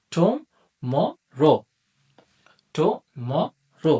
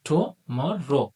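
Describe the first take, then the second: First: টুমরো drawn out very slowly in three beats; syllable by syllable. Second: টুমরো said slowly, syllables still spaced out; slower টুমরো, spacing its syllables. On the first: Teacher showing students টুমরো slowly by syllable. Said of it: "আমরা যদি সাউন্ডের মাধ্যমে বিষয়টা বুঝতে চাই". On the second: Teacher repeating টুমরো slowly for students. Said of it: "দেখুন, টুমরো". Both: Shown as a demonstration.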